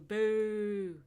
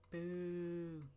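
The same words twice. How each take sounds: First: It is said with strong feeling. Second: It is said flatly, without feeling.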